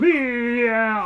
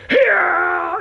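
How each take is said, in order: First: Imitating a dazed yeah. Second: High, loud yelled yeah; mock shout. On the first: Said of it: "he's standing there and he's going". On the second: Gamer imitating what you'd yell under attack, a loud mock shout. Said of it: "you'd be going".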